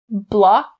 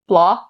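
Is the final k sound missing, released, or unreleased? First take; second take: released; missing. First: The final k sound is clearly released. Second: The final k sound is dropped entirely. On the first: The speaker calls it right. "You can either pronounce the K sound distinctly" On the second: The speaker calls it wrong. "Notice I'm not saying blah, blah. Not correct"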